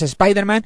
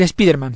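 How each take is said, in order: First: The name is said with English-style pronunciation. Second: The name is said with Spanish-style pronunciation. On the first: The speaker calls it right. "que es Spider-Man" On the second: The speaker calls it wrong. "dejarme decir Spider-Man. Ya sé que está mal pronunciado"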